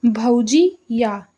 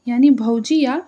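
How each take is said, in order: First: Drawn-out, slow reading of भौजी या; slow, drawn-out example read by a teacher. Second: Said in the usual way. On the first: Shown as a demonstration. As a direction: say भौजी या slowly, each syllable stretched out. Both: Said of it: "जैसे कि देखिए".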